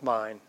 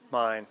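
First: The word is said softly and gently. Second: The word is said sharply with an edge. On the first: Nothing is being demanded. "you never say, oh, that's mine" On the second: The speaker demands something they feel they deserve. "you rarely say mine without a little edge to it"

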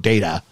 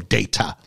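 First: The middle t is soft, almost like a d. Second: The middle t is a clear, crisp t. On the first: "we would go data. So D-A-T would be the first syllable" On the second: "Where here you go data"

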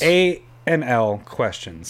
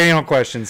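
First: The letters are spoken slowly and separately. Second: The letters run together quickly into one word. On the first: The speaker calls it right. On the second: The speaker calls it wrong.

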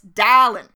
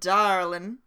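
First: It is said in a Boston accent. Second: It is said in a Southern accent. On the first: The speaker calls it right. "It's darling" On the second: The speaker calls it wrong. "It's not darling"

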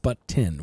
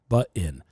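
First: The middle T is clearly pronounced. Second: The middle T is dropped or swallowed. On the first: The speaker calls it right. "It's but tin" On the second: The speaker calls it wrong. "your generation has forgot the T"

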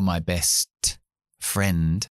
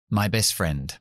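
First: The T of 'best' is clearly pronounced. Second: The T of 'best' is left out. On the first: The speaker calls it wrong. "No digo my best friend" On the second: The speaker calls it right. "simplemente porque es demasiado difícil"

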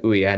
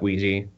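First: It is said like oo-ya, without a j sound. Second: It is said like wee-jee, with a j sound. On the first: "I always want to pronounce it Ouya, like the console" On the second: "not Ouija"

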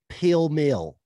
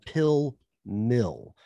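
First: Said with a full, strong Tennessee accent. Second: Carefully enunciated with only a mild Southern accent. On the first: "How would it sound with the full accent?" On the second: "he put a little extra intonation on that right. You know, enunciation"

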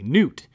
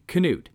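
First: The initial K is silent. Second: The initial K is clearly pronounced. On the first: The speaker calls it wrong. "not just a soft K, but a silent K" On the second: The speaker calls it right. "with a hard K"

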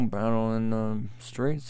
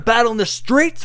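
First: It is said calmly with a gently rising, falling pitch. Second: It is said forcefully with high energy. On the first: It sounds like giving instructions. "instead, it's kind of like this" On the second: It is a rousing call to war. "I was just picturing pounding on the thing and we're going to war"

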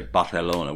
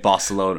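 First: The word is said with a Castilian pronunciation. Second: The word is said with an English pronunciation. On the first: "which is wrong" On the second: "What point do we stop saying Barcelona"

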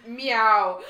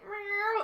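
First: It is pronounced as a crisp, enunciated word. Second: It is mewed like a real cat.

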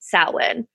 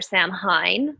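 First: The word is pronounced the Gaelic way. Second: The word is pronounced letter by letter. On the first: The speaker calls it right. "but because it's Celtic or Gaelic, it's pronounced Samhain" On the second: The speaker calls it wrong. "you would think it would be pronounced Samhain"

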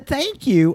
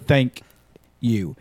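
First: The pitch rises on thank. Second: The pitch stays flat on thank. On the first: The thanks sounds warm and friendly. The speaker calls it right. "If he was a thank you, I would have been okay" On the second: The thanks sounds cold and unfriendly. The speaker calls it wrong. "There was no like incline on the thank. It was a straight thank you"

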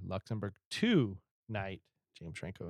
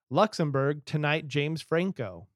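First: It is read at a slower pace. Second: It is read at a quicker, normal pace.

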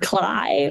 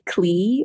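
First: The vowel sounds like 'eye'. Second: The vowel sounds like 'ee'. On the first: "I had been saying it wrong in my mind" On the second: "I had been saying it wrong in my mind"

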